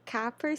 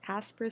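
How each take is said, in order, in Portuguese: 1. O nome é dito sem som de s. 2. O nome é dito com som de s. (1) "Eu pronunciei o nome dele certo? Não" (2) "o C tem som de S"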